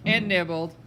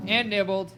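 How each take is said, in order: Both takes have the same delivery.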